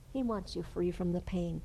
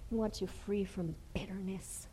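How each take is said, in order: First: Said in the usual way. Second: A soft hushed repeat; whisper. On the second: Acted. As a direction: hush the repeat.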